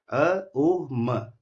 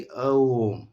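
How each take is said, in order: First: "अ, उ, म" as three separate sounds; separated syllables. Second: "अ, उ, ओम" drawn out and run together; joined syllables. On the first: Teacher showing the three letters of Om, sounded separately. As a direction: sound out "अ", "उ", "म" one at a time. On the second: Teacher showing how three letters join into Om, syllables blended. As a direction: glide slowly from "अ" through "उ" into "ओम". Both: Shown as a demonstration. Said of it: "ये तीन अक्षरों से जुड़कर बना है ओम".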